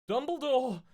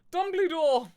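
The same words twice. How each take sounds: First: Higher, louder call for help; yelling. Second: Much higher and louder, full desperate shout; bigger yell. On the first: Two girls calling Dumbledore while running upstairs, yelling. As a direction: shout his name up the stairs. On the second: Girls yelling for Dumbledore a second time, louder. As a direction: scream the name even harder. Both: Acted. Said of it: "we both yelled".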